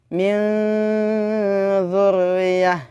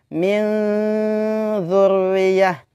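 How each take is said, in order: No difference in how they are said.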